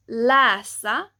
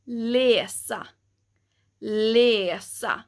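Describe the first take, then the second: First: "läsa" with an open a-like first vowel; wrong vowel. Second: "läsa" with an e sound, "lesa"; correct vowel. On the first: Teacher showing the mistaken reading, wrong vowel. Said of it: "instead of it being läsa". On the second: Teacher giving the right way to say it, e vowel. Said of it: "it would be more like". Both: Shown as a demonstration.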